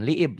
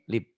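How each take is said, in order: First: The vowel is drawn out long. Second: The vowel is short and clipped. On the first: The speaker calls it wrong. "jangan liib ya" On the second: The speaker calls it right. "i-nya nggak fungsi"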